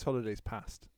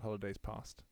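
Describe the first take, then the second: First: Past is said with a northern English accent. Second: Past is said with a southern English accent. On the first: The speaker calls it right. "make sure that our listeners from the southern end of England land realised just there that it's holidays past" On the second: The speaker calls it wrong. "It's not holidays past"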